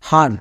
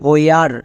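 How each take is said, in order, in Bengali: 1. এটি সাধারণ 'h' উচ্চারণ দিয়ে শুরু হয়। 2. এটি 'h-w' গ্লাইড উচ্চারণ দিয়ে শুরু হয়। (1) "কিন্তু আমরা এই শব্দকে এরকম উচ্চারণ করি না" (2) "এর জন্য উচ্চারণটা হবে হোয়ার"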